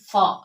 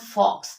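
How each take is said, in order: First: The word ends on a vowel sound. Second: The word ends with an x sound. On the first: The speaker calls it right. "it is fa" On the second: The speaker calls it wrong. "it is not fox"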